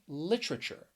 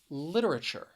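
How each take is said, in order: First: The word is said with three syllables. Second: The word is said with four syllables. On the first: "or three syllables" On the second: "you could pronounce it with four syllables"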